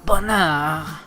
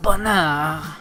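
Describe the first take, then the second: First: It is said softly, intimately and romantically. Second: It is said softly, intimately and romantically.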